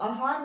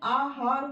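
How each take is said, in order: First: The first vowel is a short a. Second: The first vowel is a long a. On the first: The speaker calls it wrong. "आहार नहीं होता है" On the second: The speaker calls it right. "आहार होता है, आ की sound आती है"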